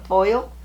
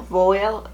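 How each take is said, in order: First: "voile" with an oy vowel, rising; questioning pronunciation. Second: "voile" with one plain o vowel, like "vole"; tentative pronunciation. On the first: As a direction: try "voile" as "voyl", as if asking. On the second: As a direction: try saying "voile" as "vole". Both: Shown as a demonstration. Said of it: "How do you say V O I L E?".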